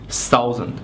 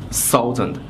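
Both takes have the same delivery.

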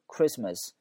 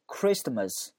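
First: The t sound in the middle is silent. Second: The t sound in the middle is pronounced. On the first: The speaker calls it right. "那个T 是不发音的" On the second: The speaker calls it wrong. "他把那个T 也发出来，这是有问题的"

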